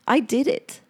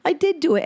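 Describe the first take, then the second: First: Said in the usual way. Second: Proud emphasis on "did", voice up high; stress on did. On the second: Real, not acted. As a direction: lean hard on "did" in "I did do it".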